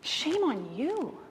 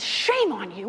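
First: Gentle rebuke. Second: A touch of a stern rebuke; stern scolding. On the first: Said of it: "And Francis says". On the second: Friar scolding a would-be robber, mildly stern. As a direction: scold the robber, firm and flat. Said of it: "the brother shames the guy down and says". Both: Retold or imitated.

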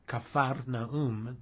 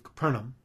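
First: Capharnaum said slowly, syllable by syllable; original-form pronunciation. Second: Said in the usual way. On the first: Shown as a demonstration. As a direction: draw out Capharnaum as Ca-phar-na-um, with an f sound. Shows original form of the name.

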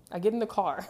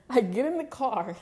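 First: Said in the usual way. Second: Higher and louder, laughing through it; can't stop laughing at the memory. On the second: Real, not acted. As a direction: laugh while you say it. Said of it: "It's not even funny".

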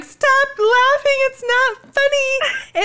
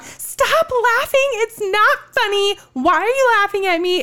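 First: High, slow, drawn-out tearful yelling; mock yell. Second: Mock yelling. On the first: Wife imitating her drunk self yelling at her husband. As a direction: stretch each word in a wailing pitch. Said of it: "yelling at him and screaming and crying". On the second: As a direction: pitch it up and drag it like a drunk argument. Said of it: "you hear me in the background".

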